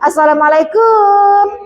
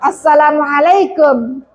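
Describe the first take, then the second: First: The final syllable is drawn out long. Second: The final syllable is kept short. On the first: The speaker calls it wrong. "Orang sekarang assalamualaikum. Padahal kan tidak panjang" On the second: The speaker calls it right. "Ya nggak ada wawunya kok"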